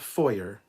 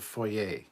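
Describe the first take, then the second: First: The final R sound is pronounced. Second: The final R sound is silent. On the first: The speaker calls it wrong. "It is not a foyer" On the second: The speaker calls it right. "The R is silent"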